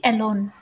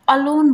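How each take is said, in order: First: एलोन with a long ए at the start; wrong alone. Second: अलोन with a short first अ; correct alone. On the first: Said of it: "ना कि एलोन". (एलोन, गलत लंबा ए) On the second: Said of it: "अलोन बोलते हैं, ना कि एलोन". (अलोन, पहला अक्षर छोटा अ) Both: Shown as a demonstration.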